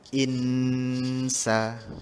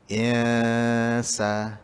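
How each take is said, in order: First: The tongue presses the palate during the nasal. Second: The tongue floats freely during the nasal. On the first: The speaker calls it wrong. "lidah kita yang atas tu melekat dekat langit-langit atas" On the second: The speaker calls it right. "So dia terapung"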